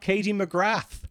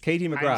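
First: The T sound in McGrath is pronounced. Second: The T sound in McGrath is silent. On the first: The speaker calls it wrong. "It's not Katie McGrath" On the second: The speaker calls it right. "the T is silent"

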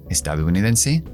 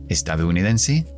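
Both takes have the same delivery.

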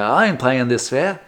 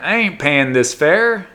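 First: It is said in a put-on Australian accent. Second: It is said in the speaker's ordinary accent. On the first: "that's a bad Australian accent" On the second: "he wouldn't talk like that"

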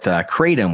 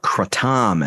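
First: The word is said the usual American way. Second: The word is said the way Thai speakers say it. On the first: This is the usual local way of saying it. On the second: This is how it is said in places like Thailand.

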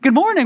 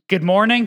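First: It is said in an overly bright salesman voice. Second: It is said flatly, with no interest.

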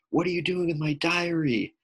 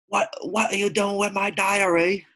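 First: It is said in his usual non-British accent. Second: It is said in a put-on British accent.

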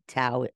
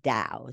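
First: The word begins with a T sound. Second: The word begins with a D sound. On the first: "like sometimes it's a T, so it could be Tao" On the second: "or a D"

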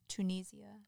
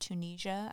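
First: It is said with a British pronunciation. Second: It is said with an American pronunciation. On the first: "I love British people say that" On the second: "instead of Tunisia"

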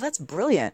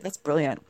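First: It is said in a sincere, admiring tone. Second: It is said in a sarcastic, mocking tone. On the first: Something really is excellent. "we could say, you know, brilliant" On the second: Something went badly, like tripping over. "it almost sounds sarcastic. So, because we use it that way"

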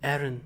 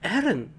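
First: It is said in a flat, even voice. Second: It is said in a startled, spooked voice.

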